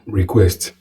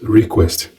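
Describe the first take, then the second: First: The stress is on the second syllable. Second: The stress is on the first syllable. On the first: The speaker calls it right. "The noun is also request" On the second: The speaker calls it wrong. "not request"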